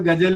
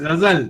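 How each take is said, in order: First: The first consonant is a plain hard g. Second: The first consonant is a scraped throaty sound. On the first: This is how most people say it. The speaker calls it wrong. "अधिकांश लोग गजल गजल ही बोलते हैं" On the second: This is the proper Urdu pronunciation. The speaker calls it right. "अब बोलना तो चाहिए गजल"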